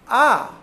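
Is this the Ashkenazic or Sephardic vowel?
Sephardic. The vowel is said the Sephardic way.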